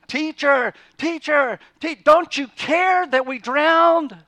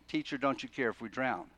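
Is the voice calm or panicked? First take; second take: panicked; calm. First: It is said in a loud, panicked voice. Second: It is said in a calm, even voice. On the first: The speaker calls it right. "they grab him, and they're shaking him" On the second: The speaker calls it wrong. "They didn't say it that way"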